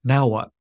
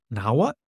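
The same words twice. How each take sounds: First: "Now what?" louder, with the tune falling on "what". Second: "Now what?" with the tune rising on "what". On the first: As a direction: hit "Now what?" firmly and let it drop. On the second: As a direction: lift "what" at the end as an open question. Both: Acted. Same question posed two ways.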